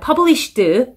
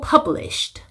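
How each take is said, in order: First: The final sound is hard and strong. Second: The final sound is a soft puff of air. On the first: The speaker calls it wrong. "너무 이렇게 센 소리 내시면 안 되고" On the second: The speaker calls it right. "바람소리 끝부분에 내주셔야 되고"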